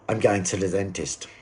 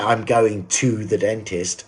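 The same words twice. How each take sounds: First: The small words are weakened and run together. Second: Each small word is said fully and clearly. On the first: The speaker calls it right. "how to use weakened forms" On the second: The speaker calls it wrong. "I don't say"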